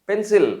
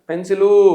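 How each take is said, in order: First: The word ends on the final consonant. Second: The word ends with an added vowel. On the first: The speaker calls it right. "పెన్సిల్ అనాలి" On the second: The speaker calls it wrong. "అలాంటివి తగ్గించుకోవాలి"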